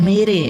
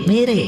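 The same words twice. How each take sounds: The two takes are said the same way.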